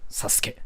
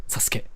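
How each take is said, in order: No difference in how they are said.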